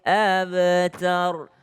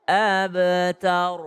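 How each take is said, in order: No difference in how they are said.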